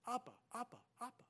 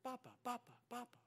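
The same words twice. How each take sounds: First: Put-on "Appa" stressed on the first syllable, soft baby call. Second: Soft babbled baby call, lightly voiced; baby calling Papa. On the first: Shown as a demonstration. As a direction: say "Appa" with the weight on the opening "A". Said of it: "emphasis on the other syllable". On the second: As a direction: coo it like an infant reaching for dad. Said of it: "she would say".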